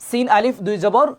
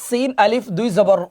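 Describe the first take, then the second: Both takes have the same delivery.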